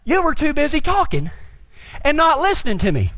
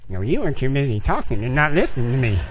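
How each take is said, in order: First: Said in the usual way. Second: Low, grumbled mock repetition; mocking parroting. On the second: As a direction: parrot it back sulkily in a low voice. Mockingly parrots instructor's reply.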